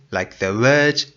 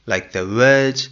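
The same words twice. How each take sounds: The two takes are said the same way.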